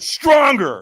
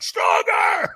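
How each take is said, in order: First: It is said at normal loudness. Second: It is screamed loudly and forcefully.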